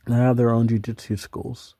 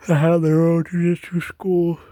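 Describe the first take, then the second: First: Said in the usual way. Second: Words stretched by a yawn. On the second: Real, not acted. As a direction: talk through a big yawn. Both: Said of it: "Sorry, I yawned".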